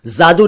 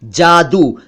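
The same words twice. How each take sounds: First: जादू said as "zaadu"; wrong z sound. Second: जादू with a j sound as in jar; correct j sound. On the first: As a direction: start जादू with a buzzing z instead of j. (जादू का ग़लत उच्चारण, ज़ से) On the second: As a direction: say जादू starting with j, not z. (जादू का सही उच्चारण, ज से) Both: Shown as a demonstration. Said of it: "जादू नहीं".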